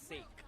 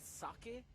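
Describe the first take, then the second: First: The word is said the English way. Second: The word is said the Japanese way. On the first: It is the word used in the English phrase. "but here it's God's sake" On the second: It refers to the Japanese rice wine. "in Japanese is pronounced as sake"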